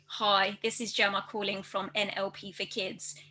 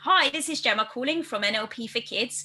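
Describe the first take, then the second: First: The pitch stays flat on one level. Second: The pitch moves up and down melodically. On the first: The speaker calls it wrong. "say it monotone with their voice all on one level" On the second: The speaker calls it right. "a bit more melodic, and so it's almost a bit more sing-songy"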